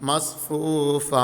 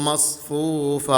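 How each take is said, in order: Both takes have the same delivery.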